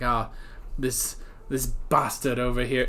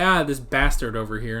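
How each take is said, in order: First: It is said in a Game of Thrones-style accent. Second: It is said in a plain American accent.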